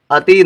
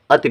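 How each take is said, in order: First: अति with the final vowel drawn out as a long ee. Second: अति ending on a brief, short i; short final i. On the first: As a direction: stretch the इ at the end of अति into ई. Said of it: "नहीं पढ़ेंगे". (अति के अंत में लंबी ई) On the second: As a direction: cut the इ at the end of अति short. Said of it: "छोटी की मात्रा तो अति पढ़ेंगे". (अति के अंत में छोटी इ) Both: Shown as a demonstration.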